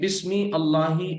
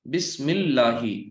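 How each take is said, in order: First: The words are split with the hamza sounded. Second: The words are joined with the hamza silent. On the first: The speaker calls it wrong. "ऐसे आप नहीं पढ़ते" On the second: The speaker calls it right. "यानी मीम को डायरेक्ट लाम में मिलाते हैं"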